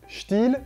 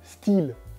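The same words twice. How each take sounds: First: It is pronounced the way Belgian ads say it. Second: It is pronounced the way French ads say it. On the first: This is how Belgian ads say it. "En Belgique, en général, quand on a des publicités, ils disent Stihl" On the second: This is how French ads say it. "quand on voit des publicités françaises, ils disent, ils disent Stihl"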